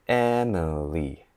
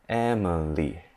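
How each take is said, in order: The two takes are said the same way.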